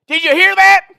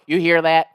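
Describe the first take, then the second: First: Very high, loud shouted question; mock holler. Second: Put-on Southern caller, no longer shouting; Southern twang. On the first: Prank caller shouts the news to his wife, mock holler. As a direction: scream it through to the next room. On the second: Prank caller turns back to the employee, level Southern twang. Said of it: "cover the phone. I'm screaming back".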